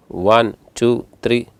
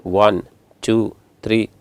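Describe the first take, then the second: No difference in how they are said.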